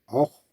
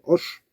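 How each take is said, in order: First: The name is said with German-influenced pronunciation. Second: The name is said with French pronunciation. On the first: The speaker calls it wrong. "que j'ai prononcé Or" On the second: The speaker calls it right. "j'ai fait un short sur euh, Hoche"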